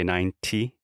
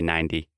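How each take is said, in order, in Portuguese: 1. A consoante do meio é um som de T claro. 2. A consoante do meio soa como um D suave. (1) "British English, you would say 90" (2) "But I say 90"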